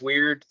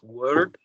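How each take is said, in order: First: The word sounds like 'weird'. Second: The word sounds like 'word'. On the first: The speaker calls it wrong. "most people call it the" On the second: The speaker calls it right. "proper pronunciation is"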